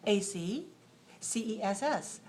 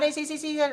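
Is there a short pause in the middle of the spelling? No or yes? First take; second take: yes; no. First: A short pause splits the letters into syllables. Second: The letters run together with no pause. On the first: The speaker calls it right. "What we do is just a little pause, a short pause" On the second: The speaker calls it wrong. "So not"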